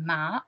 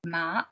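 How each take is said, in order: First: The pitch rises from middle to high. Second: The pitch rises from middle to high.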